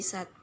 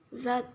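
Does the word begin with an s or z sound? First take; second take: s; z. First: The word begins with an s sound. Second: The word begins with a z sound. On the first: "fonem Z diganti menjadi fonem S" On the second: "fonem Z diganti menjadi fonem S"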